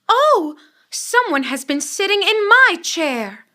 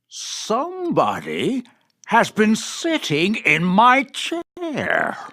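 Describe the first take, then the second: First: It is said in a middle-sized voice. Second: It is said in a big, gruff voice.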